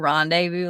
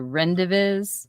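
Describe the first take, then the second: First: The word ends with a 'voo' sound. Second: The word ends with a 'viz' sound. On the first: The speaker calls it right. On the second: The speaker calls it wrong.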